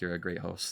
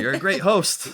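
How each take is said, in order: First: It is said at a normal volume. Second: It is said more loudly.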